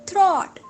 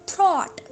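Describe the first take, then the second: Both takes have the same delivery.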